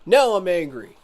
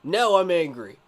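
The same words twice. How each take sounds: First: Louder, stern declaration, Now stressed; angry. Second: Now stressed, a bit louder, simmering; restated anger. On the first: Streamer telling chat he is now angry, loud and firm. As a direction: announce the anger firmly. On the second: Streamer repeating to chat he is angry, grim and firm. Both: Real, not acted.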